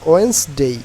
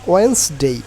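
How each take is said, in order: The two takes are said the same way.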